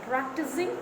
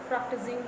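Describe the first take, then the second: Both takes have the same delivery.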